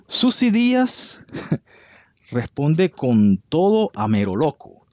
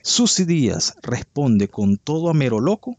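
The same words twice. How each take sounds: First: Susy Díaz launched much higher and slowly, like a gossip-show anchor; dramatic headline read. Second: Said in the usual way. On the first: Retold or imitated. Host reading a gossip headline to viewers, hammed-up announcer. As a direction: belt the headline like a tabloid host. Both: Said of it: "Y dice así".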